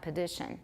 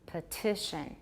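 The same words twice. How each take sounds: First: The t is a quick flap sound. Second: The t is a clear, full t sound. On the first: The speaker calls it wrong. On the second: The speaker calls it right. "那就没有 tap"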